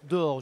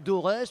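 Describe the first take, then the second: First: The name ends without an S sound. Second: The name ends with an S sound. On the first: The speaker calls it right. "Je crois qu'il faut dire d'or" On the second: The speaker calls it wrong. "Je dis Dorès, tout le monde dit Dorès"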